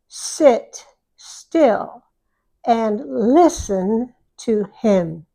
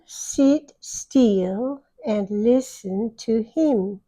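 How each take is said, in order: First: The i vowels are short and lax. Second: The i vowels sound close to ee. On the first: The speaker calls it right. "Listen to me read it the way Americans say it" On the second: The speaker calls it wrong. "want to change the I sound to a little bit wider. It's almost an E. They say"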